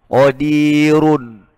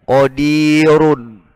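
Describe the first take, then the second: No difference in how they are said.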